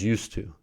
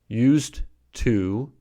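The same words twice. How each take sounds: First: The consonant before 'to' is voiceless. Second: The consonant before 'to' is voiced. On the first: "transformed to a voiceless consonant" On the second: "originally voiced"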